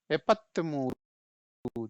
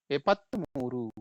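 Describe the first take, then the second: First: एपत्तमूरू stretched out very slowly, syllable by syllable; Kannada number demo. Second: एपत्तमूरू read slowly and clearly, as one word; Kannada number demo. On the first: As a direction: spell out एपत्तमूरू for learners, each syllable drawn long. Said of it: "पढ़ेंगे कैसे?". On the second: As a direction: repeat एपत्तमूरू at an even, slow teaching pace. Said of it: "just follow करिए". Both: Shown as a demonstration.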